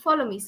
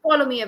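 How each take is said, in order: First: It is said in a soft, polite tone. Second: It is said in a firm, commanding tone. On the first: It is a courteous request. The speaker calls it wrong. "it's a polite statement. Follow me, sir. It's like that" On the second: It is an order that must be obeyed. The speaker calls it right. "It has to be very dictative. Follow me, everyone. So, like that"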